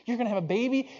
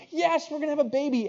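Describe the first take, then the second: First: High, rising, astonished question; acted husband's happy disbelief; amazed question. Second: Very high, thrilled answer; acted wife's gleeful yes; elated confirmation. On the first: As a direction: ask it high-pitched, hardly believing it. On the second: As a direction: confirm it high-pitched and overjoyed. Wife confirms the joyful news.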